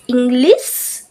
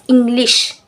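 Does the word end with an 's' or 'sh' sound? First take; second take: s; sh. First: The word ends with a plain s sound. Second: The word ends with a sh sound. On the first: The speaker calls it wrong. "will not be able to pronounce the letter sh" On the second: The speaker calls it right. "instead of english"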